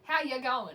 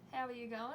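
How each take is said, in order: First: The word 'are' is left out entirely. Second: Every word is said, including 'are'. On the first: The speaker calls it right. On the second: The speaker calls it wrong.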